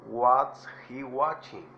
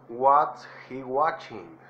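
Both takes have the same delivery.

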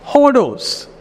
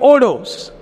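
First: The word begins with an h sound. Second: The word begins directly with a vowel. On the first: "Because it is a rough breathing mark, it becomes hodos" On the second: "Otherwise it will be odos"

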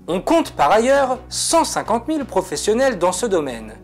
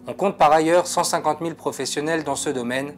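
First: The voice is lively, with varied pitch and rhythm. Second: The voice is flat, with little pitch movement. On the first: The speaker calls it right. "je peux rendre cet extrait vivant et interactif" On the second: The speaker calls it wrong. "ma voix est monocorde, mon texte n'est pas rythmé"

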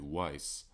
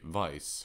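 First: The word begins with a W sound. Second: The word begins with a V sound. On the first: The speaker calls it right. "when it should be wise" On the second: The speaker calls it wrong. "I've been mispronouncing the word wise, because I say vice"

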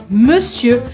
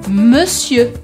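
Both takes have the same delivery.

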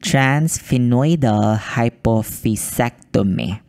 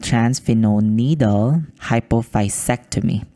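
First: The first word is said clearly as 'transphenoidal'. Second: The first word comes out garbled, like 'transphenol needle'. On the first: The speaker calls it right. "Let me try one more time" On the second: The speaker calls it wrong. "I think I didn't say that right"

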